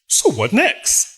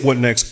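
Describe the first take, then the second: First: It sounds bright and cheerful. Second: It sounds weary and despairing.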